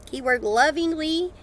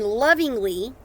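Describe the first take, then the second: First: Lovingly drawn out slowly and higher, rising; stress on lovingly. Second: Said in the usual way. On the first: Shown as a demonstration. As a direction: lean on lovingly, slow it right down.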